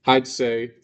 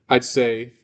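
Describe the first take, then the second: Both takes have the same delivery.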